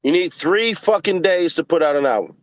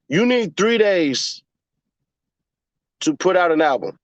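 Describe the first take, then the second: First: Fucking hit hard in the middle; emphatic fucking; stress on fucking. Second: Slow, deliberate, spelling it out; slow explaining voice. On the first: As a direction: punch fucking, keep the rest level. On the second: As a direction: lay it out slowly for chat. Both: Shown as a demonstration. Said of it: "Let me slow down".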